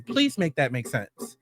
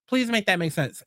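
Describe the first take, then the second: First: Slow weary disbelief; slow exasperated plea. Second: Said in the usual way. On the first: Real, not acted. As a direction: spell it out slowly like you're begging for logic.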